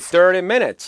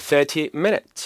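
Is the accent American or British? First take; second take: American; British. First: It is said in an American accent, soft T. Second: It is said in a British accent, clear T. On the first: "미국 발음일 때는" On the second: "영국 발음일 때는 T 발음을 다 살리죠?"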